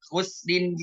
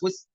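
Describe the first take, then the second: First: The word ends with a full -in ending. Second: The word is cut off at the consonant. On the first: The reader continues without stopping. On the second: The reader stops at this word.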